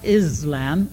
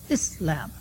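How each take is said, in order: First: The middle consonant is a Z sound. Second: The middle consonant is an S sound. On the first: The speaker calls it wrong. "the name of the religion is not Islam" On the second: The speaker calls it right. "it's Islam"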